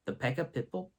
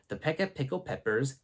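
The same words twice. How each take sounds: First: Pickled fumbled into "pipple"; tongue-tied "pipple" in place of pickled; deliberately mispronounced. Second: Said in the usual way. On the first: Retold or imitated. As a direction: botch pickled as "pipple", questioning. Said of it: "No, not pipple". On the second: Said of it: "Oh, sorry".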